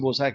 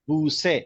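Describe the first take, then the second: First: It has an 'o' vowel and ends in 'ah'. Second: It has an 'oo' vowel and ends in 'eh'. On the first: "यानी हम लोग उसे बोसा कहते हैं" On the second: This is how Iranians say it. "But as per Iranian pronunciation it is called बूसे"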